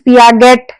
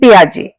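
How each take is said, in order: First: The name ends with a clear t sound. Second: The name ends without a t sound. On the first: The speaker calls it wrong. "Please पियागेट या जेट कुछ नहीं बोलना है" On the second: The speaker calls it right. "टी is silent here"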